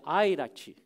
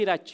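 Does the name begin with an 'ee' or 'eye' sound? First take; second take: eye; ee. First: The name begins with an 'eye' sound. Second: The name begins with an 'ee' sound. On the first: The speaker calls it right. "se pronuncia em inglês, é Airati" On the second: The speaker calls it wrong. "Nem é Irati"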